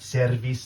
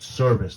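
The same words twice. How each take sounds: First: It is said in a Spanish-speaker's accent. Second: It is said in a Brooklyn New York accent. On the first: "not service" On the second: "Motherfucker said service like he was from Brooklyn"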